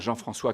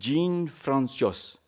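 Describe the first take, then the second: First: The name is said with a French accent. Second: The name is said with an American accent. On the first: The speaker calls it right. "Jean-François correct" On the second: The speaker calls it wrong. "ça donnait phonétiquement"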